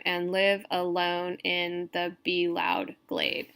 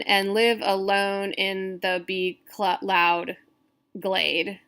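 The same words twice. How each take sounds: First: Slow, connected verse reading; deliberate recitation, falling to a close; scansion reading, retried. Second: Slow syllable count with a stumble near the end; measured recitation that falters and restarts; halting scansion reading. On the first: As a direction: read it through smoothly in measured beats. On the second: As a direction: read the verse beat by beat, breaking before the last words. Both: Shown as a demonstration. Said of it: "Let me try that one more time".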